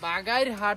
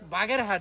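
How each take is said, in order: First: The middle vowel sounds like 'ai'. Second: The middle vowel sounds like 'e'. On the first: The speaker calls it right. "এটা হচ্ছে বাগাইরহাট হবে" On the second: The speaker calls it wrong. "Moeen ভুল বলছে"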